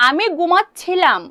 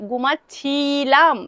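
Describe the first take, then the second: First: Said in the usual way. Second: ঘুমাচ্ছিলাম drawn out very slowly, every syllable clear; slowly spelled out. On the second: Shown as a demonstration. Teacher making students hear the past ending, very slow. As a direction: stretch ঘুমাচ্ছিলাম so the ছিলাম ending stands out. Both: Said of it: "খুব বেশি minorly তোমাদেরকে শুনতে হবে".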